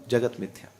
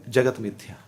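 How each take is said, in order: The two takes are said the same way.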